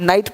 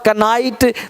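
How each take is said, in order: First: The word begins with n, no k. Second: The word begins with a k sound. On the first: The speaker calls it right. "नाइट पढ़ना है" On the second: The speaker calls it wrong. "ऐसे गलत हो जाएगा"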